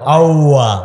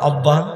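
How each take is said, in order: First: The b sound is missing, replaced by a w. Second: The b sound is made clearly with both lips. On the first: The speaker calls it wrong. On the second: The speaker calls it right.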